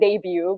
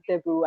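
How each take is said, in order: First: It is said the usual English way. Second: It is said the Filipino way. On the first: This is how the word is normally said elsewhere. "which is like a debut" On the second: This is how people in the Philippines say it. "but we call it debut"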